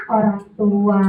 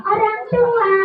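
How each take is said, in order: First: Said in the usual way. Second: High puppet echo; puppet character. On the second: Acted. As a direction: parrot it back in puppet voice. Puppet repeats presenter's correction.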